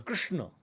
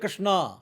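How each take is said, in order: First: The word ends without a final 'aa' vowel. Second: The word ends with a long 'aa' vowel. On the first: The speaker calls it right. "सही उच्चारण क्या है" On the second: The speaker calls it wrong. "कृष्णा जो word है वो कृष्ण नहीं है"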